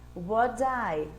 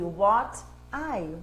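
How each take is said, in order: First: The t sounds like a soft d, linked. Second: The t is a clear, separate t sound. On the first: "O que que ele vira ali" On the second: "ao invés de"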